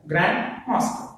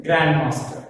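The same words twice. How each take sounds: First: "Grandmaster" broken as "grand", pause, "master"; split into two words. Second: "Grandmaster" run together, GRAND punched; stress on GRAND. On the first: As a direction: say "Grandmaster" in two parts with a gap after "grand". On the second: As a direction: hit "grand" and let "master" fall in one word. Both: Shown as a demonstration. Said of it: "Stress falls on the grand".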